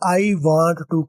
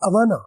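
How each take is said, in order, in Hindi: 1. हर शब्द पूरा और अलग-अलग बोला जाता है। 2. शब्द मिलकर एक छोटा शब्द बन जाते हैं।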